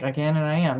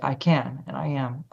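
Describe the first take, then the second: First: It is said casually, without much feeling. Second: It is said seriously, with intense feeling.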